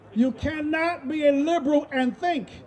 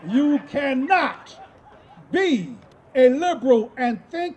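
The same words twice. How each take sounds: First: It is spoken at a normal speed. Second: It is spoken more slowly and deliberately.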